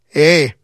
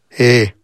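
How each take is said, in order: First: It is said with some liveliness. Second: It is said flatly, with little emotion.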